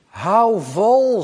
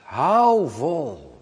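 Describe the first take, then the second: First: Louder, higher firm call to hold on; Jesus urging his followers to hold on. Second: Gentle repeat with a laugh. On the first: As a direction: urge them to keep going. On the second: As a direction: reassure with a chuckle. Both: Retold or imitated. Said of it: "zegt Jezus".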